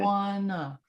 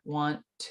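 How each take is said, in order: First: The t is dropped, ending in a schwa. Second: The two t sounds merge into one held t. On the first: "I'll just take out that t altogether" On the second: "my impulse is to bring those together"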